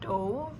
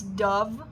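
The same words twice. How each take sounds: First: The name is not said like the bird. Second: The name is said like the bird. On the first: "I say Dove" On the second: "Maybe it's Dove from the bird"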